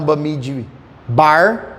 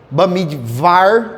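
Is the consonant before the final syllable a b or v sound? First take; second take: b sound; v sound. First: The consonant before the last syllable sounds like b. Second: The consonant before the last syllable sounds like v. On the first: The speaker calls it wrong. "não Bamidbar, como é escrito" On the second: The speaker calls it right. "o V tem som de, de V"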